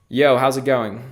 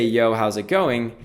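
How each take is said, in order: First: Deliberate command to the assistant. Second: Said in the usual way. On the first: Shown as a demonstration. Speaking the test phrase into the mic, deliberate voice command. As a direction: say it clearly so the mic catches it. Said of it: "it should trigger both of these things". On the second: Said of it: "or if I just say".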